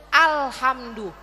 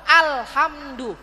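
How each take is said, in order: Both takes have the same delivery.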